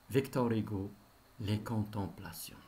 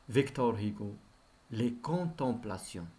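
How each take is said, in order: Both takes have the same delivery.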